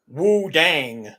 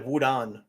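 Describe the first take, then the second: First: Wu Dang loud, with a drawn-out twangy Dang; wrong-syllable emphasis. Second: Wudan said evenly, with an open "dahn"; correct pronunciation. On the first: Retold or imitated. Quoting what you also hear from people, mispronounced with wrong emphasis. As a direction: lean hard on Wu Dang as mispronouncers do. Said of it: "put the emphasis on the wrong syllable". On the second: Shown as a demonstration. Correcting how people say the name, properly pronounced. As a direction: say Wudan level, without punching it. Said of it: "instead of Wudan".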